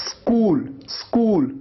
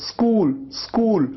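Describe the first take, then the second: Both takes have the same delivery.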